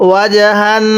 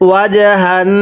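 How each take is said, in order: The two takes are said the same way.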